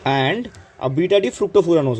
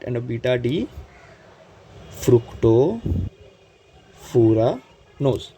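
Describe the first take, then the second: First: Said in the usual way. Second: Fructofuranose stretched very slowly, broken into chunks; slow say-along. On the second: Shown as a demonstration. Teacher leading students through the sugar's name, slow syllable-by-syllable delivery. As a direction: draw out each part with long pauses.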